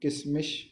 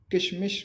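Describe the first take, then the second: First: किशमिश said as "kismish"; sa for sha. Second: Said in the usual way. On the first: Shown as a demonstration. Teacher showing a common mistake, किशमिश said as "kismish". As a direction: put "s" for the first sh in किशमिश. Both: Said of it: "शा को सा भी कहते हैं".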